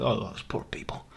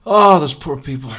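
First: Whisper. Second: Louder hammed-up wail of pity; mock loud lament. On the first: Pretend. Whispered lament then repeated loud. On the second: Pitying the soldiers for viewers, loud mock lament.

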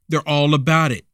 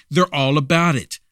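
Both takes have the same delivery.

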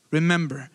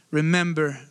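The two takes are said the same way.

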